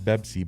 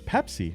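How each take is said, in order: First: The word starts with a b sound. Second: The word starts with a p sound. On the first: "Arabs always go Bebsi" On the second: "They don't say Pepsi"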